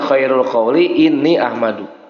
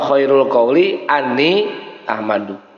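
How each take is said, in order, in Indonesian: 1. Kata sebelum 'ahmadu' diawali dengan vokal i. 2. Kata sebelum 'ahmadu' diawali dengan vokal a. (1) "Boleh ini" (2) "boleh an"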